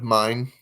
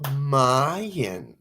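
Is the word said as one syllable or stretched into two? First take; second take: one syllable; two syllables. First: The word is said as one syllable. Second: The word is stretched into two syllables. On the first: "Instead of saying mine" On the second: "Instead of saying mine, she says Mayan"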